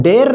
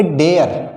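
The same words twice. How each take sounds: First: डेयर squeezed into one syllable, 'der'; wrong one-syllable reading. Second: डेयर in two parts, 'de-yar'; correct two-syllable reading. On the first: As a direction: say डेयर as 'der', without the y glide. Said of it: "डेयर नहीं बोलेंगे इसको". (डेयर को एक झटके में 'डेर') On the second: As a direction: say डेयर with the glide before the r. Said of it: "क्या बोलेंगे?". (डेयर को खोलकर 'डे-यर') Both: Shown as a demonstration.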